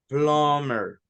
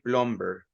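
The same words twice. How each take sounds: First: The b sound is silent in the word. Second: The b sound is pronounced in the word. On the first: The speaker calls it right. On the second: The speaker calls it wrong.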